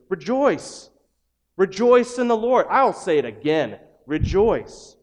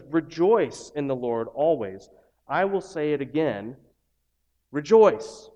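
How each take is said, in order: First: Loud, high, ringing call to rejoice; joyful proclamation. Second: Slow quote, final rejoice pushed out; measured emphasis. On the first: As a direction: shout it out like good news. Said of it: "And yet you read in Scripture this". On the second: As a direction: build to the last rejoice. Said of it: "this is an important thing". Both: Shown as a demonstration.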